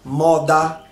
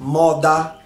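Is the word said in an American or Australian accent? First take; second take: Australian; Australian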